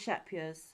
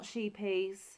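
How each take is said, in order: First: The name sounds like 'shepiers'. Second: The name sounds like 'sheepies'. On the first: The speaker calls it right. "I'm going to go with Shepiers" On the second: The speaker calls it wrong. "It is not sheepies"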